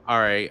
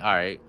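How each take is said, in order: First: It sounds sincere and understanding. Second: It sounds malicious and threatening.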